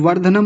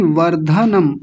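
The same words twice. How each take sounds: First: वर्धनम run together with a weak dha; mispronounced वर्धनम. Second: वर्धनम with a distinct aspirated dha; correct वर्धनम. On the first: Teacher showing the error, slurred dha in वर्धनम. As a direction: say वर्धनम hurriedly, losing the dha. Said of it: "वर्धनम नहीं". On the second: Teacher stressing the letter, clear full dha in वर्धनम. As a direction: spell out var-dha-nam in वर्धनम. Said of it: "ध पर विशेष ध्यान देंगे". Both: Shown as a demonstration.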